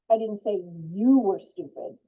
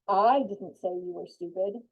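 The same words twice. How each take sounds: First: The stress is on the word you. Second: The stress is on the word I.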